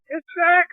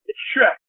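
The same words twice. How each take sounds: First: Put-on very high child's announcement; squeaky, held-pitch mock holler; imitated excited kid. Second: Raised pitch, contained phone answer; identify yourself to a kid, pitched up; higher voice without shouting; retold caller. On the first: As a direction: call it out to dad like a thrilled kid. Retold boy announcing caller to dad.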